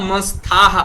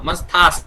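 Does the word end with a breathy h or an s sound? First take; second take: breathy h; s sound. First: The word ends with a breathy h sound. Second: The word ends with a clear s sound. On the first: The speaker calls it wrong. "न अतः मंस्थाः इति वदामः" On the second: The speaker calls it right. "मंस्थास् वदतु"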